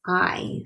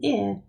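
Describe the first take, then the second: First: "I" drawn out as its letter name, "eye"; long i sound. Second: "I" as the short vowel in "it"; short i sound. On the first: Teacher showing what it's saying, long i. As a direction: say a slow long "I", as in time. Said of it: "it's saying I". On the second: Teacher showing what it's not saying, short i. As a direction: give the letter "I" its short "ih" sound. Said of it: "It's not saying I". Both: Shown as a demonstration.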